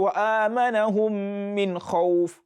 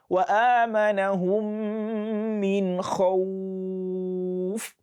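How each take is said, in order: First: The vowel in khawf is short. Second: The vowel in khawf is held long. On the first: The speaker calls it wrong. "So you don't say" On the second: The speaker calls it right. "you prolong that O sound"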